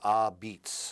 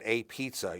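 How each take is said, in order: First: It is said as 'ah beets' with 'b'. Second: It is said as standard 'a pizza' with 'p'. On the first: The speaker calls it right. "You say ah beats" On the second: The speaker calls it wrong. "you don't say it that way"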